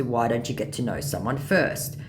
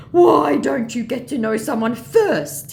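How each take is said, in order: First: Said in the usual way. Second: High, loud, slow scammer plea; pleading mock scammer. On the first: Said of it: "In response to". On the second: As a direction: draw out the scammer's reproach. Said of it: "he said".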